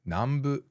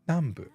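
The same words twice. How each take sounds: First: The pitch is high in the middle of the word. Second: The pitch is high on the first mora. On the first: The speaker calls it wrong. "Omidaka when it needed to be an eta" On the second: The speaker calls it right.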